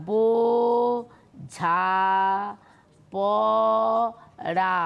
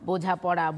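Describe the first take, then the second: First: "বো, ঝা, প, রা" with a long pause after each syllable. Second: Said in the usual way. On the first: Shown as a demonstration. Teacher to students, demonstrating syllables one at a time. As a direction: split বোঝা পড়া into its four open syllables. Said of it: "তোমরা দেখো এইভাবে". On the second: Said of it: "আমি একটা উদাহরণ দিলাম".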